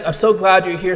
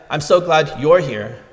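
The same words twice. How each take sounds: First: The word you're carries no special emphasis. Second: The word you're carries strong emphasis. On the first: The speaker is happy the listener is present. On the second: The speaker is glad someone else is not present.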